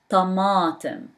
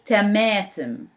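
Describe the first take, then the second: First: The first t is a thick, heavy t. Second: The first t is a plain, light t. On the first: The speaker calls it right. "I said ta, ta, tomatum" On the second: The speaker calls it wrong. "I didn't say tomatum"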